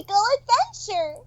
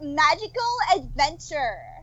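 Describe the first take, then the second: First: A high, giddy, happy girlish cartoon voice. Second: A drawling Valley Girl voice. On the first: The speaker calls it right. "slightly higher up... a little bit more giddy and happy" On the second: The speaker calls it wrong. "in my Valley Girl voice"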